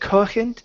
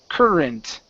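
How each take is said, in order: First: The R is pronounced Portuguese-style. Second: The R is pronounced English-style. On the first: The speaker calls it wrong. "Give me an R instead of a uh, Portuguese uh, R, saying corrent" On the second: The speaker calls it right. "It's cur, current"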